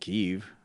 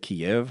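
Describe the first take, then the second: First: It is said the newer way, following Ukrainian. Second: It is said the older, familiar English way. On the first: This matches the current spelling. The speaker calls it right. "If you're pronouncing it Kyiv, Kyiv, like that makes sense" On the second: This is the long-held habit. The speaker calls it wrong. "I've always said Kiev my entire life"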